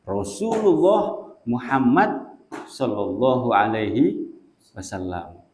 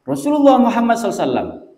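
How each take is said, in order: First: The blessing is said fully with every word clear. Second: The blessing is slurred into one short word. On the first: The speaker calls it right. "dibaca dengan lengkap dan jelas" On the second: The speaker calls it wrong. "nggak jelas, nggak jelasin Sallam"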